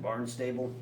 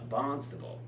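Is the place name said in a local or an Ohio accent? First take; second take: Ohio; local. First: It is said the way an Ohioan would. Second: It is said the way locals say it. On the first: "That's that's how an Ohioan would pronounce it" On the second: "I think out there it's uh"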